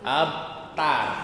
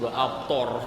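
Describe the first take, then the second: First: The last syllable has a plain, open a vowel. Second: The last syllable has a heavy, rounded o vowel. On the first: The speaker calls it right. "pakai tak nih" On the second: The speaker calls it wrong. "bukan pakai to"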